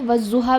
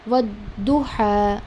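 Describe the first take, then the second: First: The doubled consonant is a 'z' sound. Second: The doubled consonant is a heavy 'd' sound. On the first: The speaker calls it wrong. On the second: The speaker calls it right.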